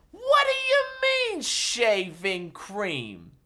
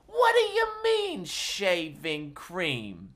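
First: Very high squeak then slow falling shaving cream; hammed-up disbelief. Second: Mock outrage. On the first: Entertainer hams up disbelief at Daddy's gift, highest squeal. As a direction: push the outrage to a squeal. Third take even higher. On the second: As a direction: ham up the disbelief. Repeats with rising pitch.

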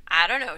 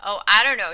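First: Hesitant evasive answer; buy time with it; stalling. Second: Louder, firm and steady; steady repeat. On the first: Bernice stalling under Marjorie's stare, hesitant. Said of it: "she stalled". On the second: Bernice repeating to Marjorie, firm and louder. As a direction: hold your ground on it. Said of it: "she repeated steadily". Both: A narrator's reading.

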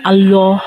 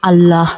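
First: "আল্লাহ" with a rounded "Alloh" vowel; thick L and rounded vowel in "আল্লাহ"; heavy-L Allah. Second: "আল্লাহ" with an open "Allaah" vowel; thin L and open a in "আল্লাহ"; light-L Allah. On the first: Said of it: "কখন আল্লাহ হবে এবং কখন আল্লাহ হবে". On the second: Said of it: "কখন আল্লাহ হবে এবং কখন". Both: Shown as a demonstration.

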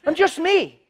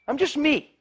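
First: Raised, louder I'm just me; high take. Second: Said in the usual way. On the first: Shown as a demonstration. Preacher demoing a line, pitched high. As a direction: lift it up high and light.

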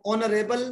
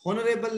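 First: "ऑनरेबल" starting straight on the vowel; silent h. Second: "हॉनरेबल" with an audible h at the start; h wrongly sounded. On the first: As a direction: drop the h in "ऑनरेबल". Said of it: "H silent है". ("ऑनरेबल", ह के बिना) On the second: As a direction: pronounce the silent h in "हॉनरेबल". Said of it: "हॉनरेबल नहीं है". ("हॉनरेबल" में ह बोलकर) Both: Shown as a demonstration.

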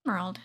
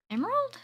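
First: Emerald. said low and falling; Emerald. with a calm falling tune; plain confirmation. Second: Emerald? with a high surprised rise; Emerald? leaping up in pitch; surprised question. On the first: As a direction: settle on Emerald. flatly. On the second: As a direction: ask Emerald? in delighted disbelief. Spots an emerald. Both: Real, not acted.

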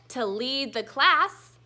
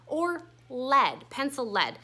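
First: "lead" said leed, slow; long e lead. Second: "lead" said led, both times; short e lead. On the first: Teacher to class, showing the verb "lead" said leed. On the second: Teacher to class, showing pencil "lead" said led. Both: Shown as a demonstration. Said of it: "but they sound different".

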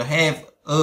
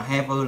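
First: Said in the usual way. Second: "have a" run together as one word; "have a" joined up, like "ha-vuh"; linked sounds. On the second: Shown as a demonstration. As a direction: link the v of "have" straight onto "a". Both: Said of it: "nó đối âm đấy".

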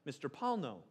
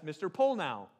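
First: Said in the usual way. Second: Polnow said POLE-now; mispronounced surname. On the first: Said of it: "which is pronounced Paulno". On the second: Retold or imitated. Pastor mimics school council misreading his name, Polnow as POLE-now. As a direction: say Polnow with a long O, ending like "now". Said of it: "No, they refer to me as".

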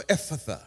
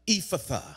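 First: Ephphatha said EFF-uh-thuh, first vowel short e; Ephphatha as eff-a-tha. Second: Ephphatha said EE-fuh-thuh, first vowel ee; Ephphatha as ee-fa-tha. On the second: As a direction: say Ephphatha with an ee sound at the start. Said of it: "and said unto him". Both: Shown as a demonstration.

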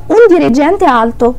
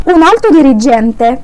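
First: Un dirigente alto spoken very slowly; slow Italian demo. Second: Un alto dirigente spoken very slowly; slow Italian demo. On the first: A teacher contrasting un dirigente alto, said slowly. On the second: A teacher dictating Un alto dirigente slowly to students. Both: Shown as a demonstration. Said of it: "تعالى افهمك في مثل تاني".

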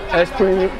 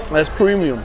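No difference in how they are said.

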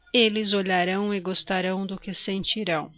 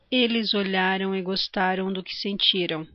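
First: "olharão", "gostarão", "sentirão" with strong final RÃO; tônica na última. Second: "olharam", "gostaram", "sentiram" stressed on LHA, TA, TI; tônica na penúltima. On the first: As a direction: stress last syllables of "olharão", "gostarão", "sentirão". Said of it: "a sílaba tônica é a última". ("olharão", "gostarão", "sentirão", acento na última sílaba) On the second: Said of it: "a sílaba tônica é a penúltima". ("olharam", "gostaram", "sentiram", acento na penúltima sílaba) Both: Shown as a demonstration.

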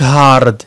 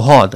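First: هارد with the R fully sounded before D; hard R. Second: هارد with no R, "haad"; soft R. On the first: Teacher showing what British speakers don't say, hard R. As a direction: pronounce every letter of هارد, R included. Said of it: "ما نقولوش هارد". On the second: Teacher giving British hard, soft R. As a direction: drop the R in هارد and lengthen the vowel. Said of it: "كنقولوا هارد". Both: Shown as a demonstration.

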